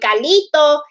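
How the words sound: The name is said with a Spanish accent. The speaker calls it wrong.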